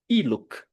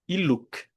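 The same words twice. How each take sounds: First: The stress is on the first syllable. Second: The stress is on the last syllable. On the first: The speaker calls it wrong. "Não é iluk" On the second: The speaker calls it right. "mas iluk. É como você deve, deve pronunciar"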